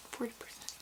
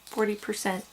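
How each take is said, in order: First: Forty percent whispered without voice; whispered retry. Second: Said in the usual way. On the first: Shown as a demonstration. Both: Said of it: "I think I said that wrong".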